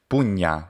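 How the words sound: It uses the ecclesiastical Italian Latin pronunciation. "which would be ecclesiastical Italian"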